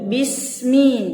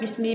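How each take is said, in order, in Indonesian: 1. Setiap bunyi diucapkan dengan jelas dan utuh. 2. Bunyinya melebur seperti ucapan santai sehari-hari. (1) "bismi jelas" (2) "jangan bismi ... Nggak tahu ngomong santai"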